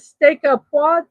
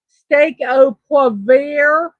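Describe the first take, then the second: First: It is said in the speaker's plain accent. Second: It is said in a Southern drawl. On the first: "I don't know if I'm pronouncing it correctly or not" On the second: "If we are in the South"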